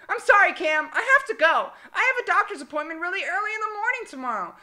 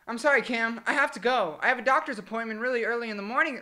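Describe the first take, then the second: First: It is said in a put-on, childlike voice. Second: It is said in a natural voice.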